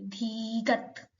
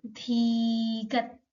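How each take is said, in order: First: धीगत said slowly and softly; slow soft model pronunciation. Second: धीगत drawn out slowly syllable by syllable; teacher stretches धीगत for students to copy; slow model pronunciation. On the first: Teacher softly repeats the letter name for learners. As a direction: repeat धीगत gently at a crawl. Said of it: "English में भी लिखा है और हिंदी में भी". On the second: Teacher slowly models the Korean letter name. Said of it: "Korean भाषा में भी लिखा है धीगत". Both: Shown as a demonstration.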